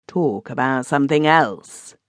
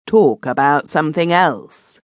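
First: Measured, unhurried, closing the topic; slow firm refusal. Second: Louder, curt, final; blunt repeat. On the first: Benson shutting down his cousin, slow and firm. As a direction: lay it down slowly. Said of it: "said Benson slowly". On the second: Benson refusing the subject again, bluntly. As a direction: cut him off bluntly. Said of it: "said Benson again, bluntly". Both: A narrator's reading.

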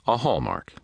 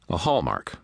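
First: Higher, exasperated echo of "A hallmark"; pitched up, then falling in dismay; sighed. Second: Said in the usual way. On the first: A narrator's reading. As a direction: repeat it with a sighing fall. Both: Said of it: "he sighed".

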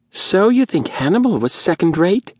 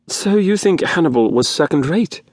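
First: High, rasping whine of an indignant man. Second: Imitating a whine. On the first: Faldon rising to defend humans, high rasping whine. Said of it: "in his high, rasping whine". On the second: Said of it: "in a fair imitation of Faldon's whine". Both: A narrator's reading.

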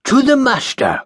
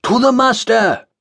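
First: Grand toast call. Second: Group reply. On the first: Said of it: "called Jeremiah Phillips". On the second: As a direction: echo the toast back. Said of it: "the others replied". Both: Acted.

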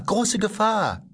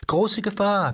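First: High robot voice, slow and stretched; boy mockingly repeating the robot's warning, high and slow; drawn-out robot mimicry. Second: High mechanical robot voice, mocking; a boy aping a fussy robot, pitched up; mimicking the robot. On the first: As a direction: drag out the warning like a mocking machine. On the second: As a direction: kid parroting the garden robot in a high robot voice. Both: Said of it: "ahmte dabei die Stimme des Roboters nach".

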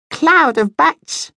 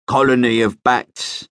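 First: Much higher, slow squeaky voice; squeaky little bat. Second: Said in the usual way. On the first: A narrator's reading. Young bat corrects his uncle with a high squeak. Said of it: "squeaked a fourth voice". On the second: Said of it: "Marlon waved a claw".

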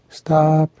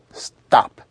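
First: "Stop" held high and level; high sustained tone on "Stop"; drawn-out level stop. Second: "Stop" short, pushed sharply down; abrupt staccato falling tone on "Stop". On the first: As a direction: stretch "Stop" out high, with no downward push. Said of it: "But in this case". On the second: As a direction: jab "Stop" down and cut it off. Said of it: "A short staccato push down". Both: Shown as a demonstration.

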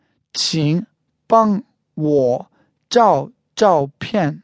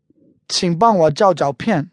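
First: Slow, each syllable of the phrase separated. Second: Said in the usual way. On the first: Shown as a demonstration. Teacher repeats the photo request for learners, syllable by syllable. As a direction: say it word by word for learners, with gaps. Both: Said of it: "One more time".

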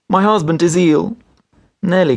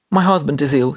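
First: High, tearful voice held in check; restrained sobbing. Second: Understated tearful plea, pitched higher; a touch of a sob; mildly sobbed out. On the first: Wife trying again with the doctor, restraining her sobs. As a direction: hold back the sobs as you plead. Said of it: "restraining her sobs". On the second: Wife telling the doctor her husband is ill, mildly sobbing. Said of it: "she sobbed out". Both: A narrator's reading.

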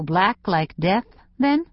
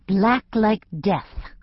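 First: "black like death" stated, then a rising "then?"; statement turned question. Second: "Black like death" drawn out slowly, ending on a fall; dramatic statement. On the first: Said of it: "we often turn statements into questions". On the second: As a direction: spell out "Black like death" slowly as a final verdict. Teen answers stylist's doubtful "Black?. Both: A narrator's reading.

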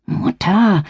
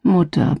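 First: Hiss. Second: Said in the usual way. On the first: A narrator's reading. Daughter hisses at her mother so Rainer won't hear, sharp hiss. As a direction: Mutter hissed sharply, higher. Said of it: "zischte ich zurück". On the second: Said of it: "Ich seufzte".

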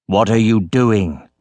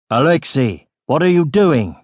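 First: Slow, lowered accusing question; stern repeated question. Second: Mild shout, pitch lifting. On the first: Captain stares at sack in boy's hands, stern question. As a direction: ask it slowly and low, demanding an answer. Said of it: "he repeated". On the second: Captain wakes and sees boy with sack, mild shout. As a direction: call out in mild alarm, raising the voice. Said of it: "A shout came from behind". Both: A narrator's reading.

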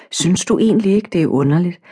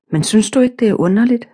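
First: Said in the usual way. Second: Higher, pressing question; insisting, higher. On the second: Acted. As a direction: push the question again, higher and more eager. Eva insists, asking again. (insisterende, højere stemme)

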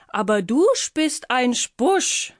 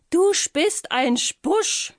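First: "spist ein Spusch" with sp- for b- and sch; slow, high spider lisping "du spist ein Spusch"; odd speech. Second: High, very slow "Du spist ein Spusch", each word spelled out; slow emphatic repeat. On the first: Spider telling the Miesepups "du spist ein Spusch" oddly. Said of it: "Sie sprach irgendwie seltsam". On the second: Spider slowly repeating "Du spist ein Spusch" for the Miesepups. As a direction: repeat it slowly for someone who missed it. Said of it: "wiederholte die Spinne". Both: Acted.

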